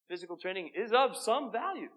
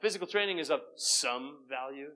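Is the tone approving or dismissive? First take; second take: approving; dismissive. First: The tone plays up the value of training. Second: The tone plays down the value of training. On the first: Physical training matters a good deal. "you could also say it like this ... The inflection changes it altogether" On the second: Physical training matters only a little. "use that to say, so therefore let's diminish, you know, physical training, because it only says some"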